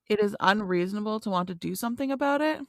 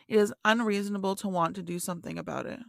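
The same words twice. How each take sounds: First: It is read as a question, rising. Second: It is read as a statement, falling.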